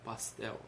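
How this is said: It is said with a São Paulo accent.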